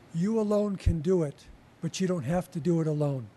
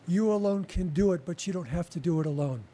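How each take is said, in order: First: It is said a little more slowly. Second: It is said at normal speed.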